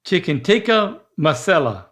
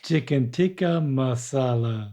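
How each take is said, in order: First: Masala with a flat short second syllable, not ah; wrong masala. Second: Chicken tikka masala, slower, with an open ah in masala; correct masala. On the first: Dad keeps mispronouncing the dish. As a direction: say masala like mass-ella. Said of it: "That's not right". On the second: Dad finally gets chicken tikka masala right. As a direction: say masala with the hot tub ah. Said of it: "you got it". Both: Real, not acted.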